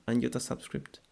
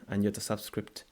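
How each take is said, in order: Both takes have the same delivery.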